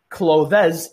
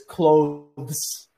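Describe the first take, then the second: First: An extra vowel sound comes before the final s. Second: The word ends without any extra vowel sound. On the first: The speaker calls it wrong. "there's no e between them, so it's not clothes" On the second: The speaker calls it right. "it's clothes"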